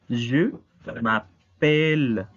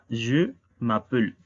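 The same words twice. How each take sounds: First: The vowel before the final L is clear and stressed. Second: The vowel before the final L is nearly silent. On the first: The speaker calls it right. "Esta E es tónica" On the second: The speaker calls it wrong. "tendríamos entonces dos sílabas átonas o mudas, lo cual no se escucha nada bien"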